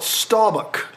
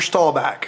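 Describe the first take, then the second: First: The name is said with a foreign-sounding pronunciation. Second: The name is said with a Texas pronunciation. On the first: This is how outsiders say the name. The speaker calls it wrong. "some, like, Polish-Canadian pronunciation" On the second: This is how locals say the name. The speaker calls it right. "in Texas, you only say his name one way"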